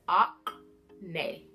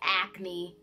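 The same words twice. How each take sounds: First: It is said in a put-on British accent. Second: It is said in a plain everyday accent. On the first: The speaker calls it right. "it's like you're saying acne but in bougie" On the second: The speaker calls it wrong. "it is not like acne, like you got acne on your face"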